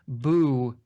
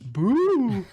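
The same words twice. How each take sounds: First: It is said flatly, without excitement. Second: It is said loudly, with excitement.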